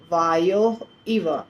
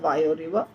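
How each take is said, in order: First: Two separate words with no linking r sound. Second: The words join through a linking r sound. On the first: "ये दो शब्द हैं, वायो और इव" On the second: "मिल मिला करके हो जाता है वायो रिव"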